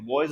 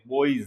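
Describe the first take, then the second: First: The way not to say बॉयज; बॉयज in the mistaken Hindi style; wrong pronunciation. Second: बॉयज said as "boiz", with a clear oi glide; the right way: बॉयज as "boiz"; बॉयज pronounced "boiz"; correct pronunciation. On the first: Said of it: "बॉयज नहीं बोलते हैं". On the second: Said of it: "बॉयज बोलते हैं". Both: Shown as a demonstration.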